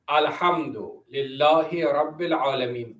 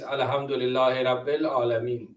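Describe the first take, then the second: First: The h and a sounds come from deep in the throat. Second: The h and a sounds are plain, not throaty. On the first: The speaker calls it right. "I have to pronounce it properly" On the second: The speaker calls it wrong. "I cannot say like this, ... That's wrong"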